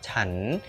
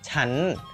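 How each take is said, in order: First: The word is said with a rising tone. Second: The word is said with a high tone. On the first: This is the standard form of the word. "nadanya uh, bangkit gitu, siang catawa" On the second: This is the informal form of the word. "nadanya naik atau nada tinggi, siang tri gitu"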